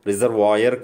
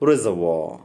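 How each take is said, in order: First: The ending is said as two syllables, 'vay-ar'. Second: The ending is said as one syllable, 'var'. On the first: The speaker calls it wrong. "దీన్ని పలకాల్సింది రిజర్వాయర్ కాదు" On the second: The speaker calls it right. "దీన్ని పలకాల్సింది"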